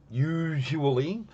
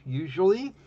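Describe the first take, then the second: First: "usually" stretched slowly, syllable by syllable; slow, deliberate "usually" with a rising end; drawn-out emphasis. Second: Said in the usual way. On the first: Real, not acted. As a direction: draw out every syllable of "usually". Word repeated, drawn out for emphasis.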